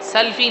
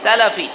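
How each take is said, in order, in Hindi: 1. L और F के बीच कोई स्वर नहीं सुनाई देता। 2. L और F के बीच एक छोटा 'a' स्वर सुनाई देता है। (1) "बहुत सारे लोग सल्फ़ी कहते हैं ... सल्फ़ी नहीं" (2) "सीन और लाम के फतहा के साथ सलफ़ी"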